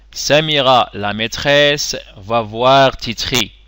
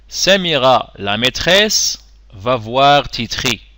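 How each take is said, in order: Both takes have the same delivery.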